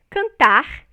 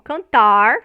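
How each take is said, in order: First: The final R is a velar fricative sound. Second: The final R is a retroflex sound. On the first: This is how it is said in Rio de Janeiro. "como é pronunciado no Rio de Janeiro" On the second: This is how rural São Paulo speakers say it. "como é pronunciado pelo, vamos dizer assim, o caipira lá de São Paulo"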